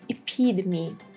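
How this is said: The T in the middle sounds like D. "in the American version"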